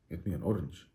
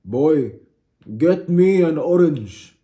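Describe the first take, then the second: First: Soft, low, baffled repeat; hushed, low bewilderment; puzzled echo. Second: Loud, high, drawn-out order; hammed-up, forceful command; insistent demand. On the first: Acted. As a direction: echo the order quietly in mock disbelief. Acts baffled friend echoing the demand. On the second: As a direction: boom it out slowly like a comic tyrant. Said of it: "I look at you and I say".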